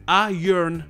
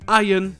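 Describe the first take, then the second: First: It is said with an R sound. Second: It is said with no R sound. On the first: "Mais en américain, le R est juste un peu plus prononcé" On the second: "en anglais britannique, dans iron et dans la plupart des mots, le R n'est pas du tout prononcé"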